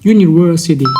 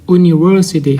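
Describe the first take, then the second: First: The word begins with a 'yoo' sound. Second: The word begins with a plain vowel sound. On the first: The speaker calls it right. "แต่เป็น" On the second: The speaker calls it wrong. "เขาจะไม่ออกเสียงมหาลัยเป็น"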